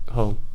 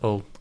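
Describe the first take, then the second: First: The word starts with a clear H sound. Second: The word starts without any H sound.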